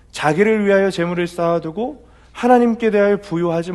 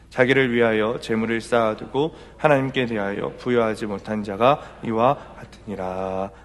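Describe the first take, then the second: First: 하나님께 hit hard, whole verse higher and louder; emphatic preaching. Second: Said in the usual way. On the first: Shown as a demonstration. Pastor re-preaches the verse to the church with force. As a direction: declare 하나님께 as the core of the verse. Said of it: "repeated verse, now preached". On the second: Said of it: "시작".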